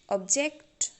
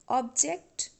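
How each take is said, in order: First: The stress is on the last syllable. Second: The stress is on the first syllable. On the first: The word is used as a verb. "when you pronounce a verb, then you have to give stress on last syllable" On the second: The word is used as a noun. "when you pronounce a noun, you have to give stress on first syllable"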